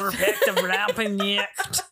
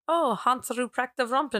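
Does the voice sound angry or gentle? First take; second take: angry; gentle. First: It is said in an angry, aggressive voice. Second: It is said in a gentle, unaggressive voice.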